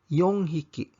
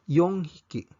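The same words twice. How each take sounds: No difference in how they are said.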